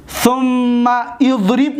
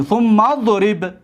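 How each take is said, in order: First: «ثم اضرب» with the i of idrib sounded; slow, higher «ثم اضرب», thumma then idrib; unjoined thumma idrib. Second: «ثم اضرب» glued as thum-madrib, alif dropped; slow «ثم اضرب», mim stuck straight onto dad; joined thummadrib. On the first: Teacher shows what we don't say, «ثم اضرب» as thumma idrib. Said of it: "نمیگیم". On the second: Teacher joins mim to dad, «ثم اضرب» as thummadrib. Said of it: "میم به ضاد میچسبونیم". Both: Shown as a demonstration.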